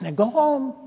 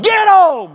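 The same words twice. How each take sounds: First: High, mild imitation of a lady coaxing; coaxing dog owner. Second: Very high, very loud shouted command; sudden yell. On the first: Elderly lady sending her little dog home, mild coaxing. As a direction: gently shoo a dog in a high voice. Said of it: "trying to get her dog to go home". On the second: Retold or imitated. Elderly lady losing patience with her dog, sudden yell. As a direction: explode at the dog. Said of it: "like that".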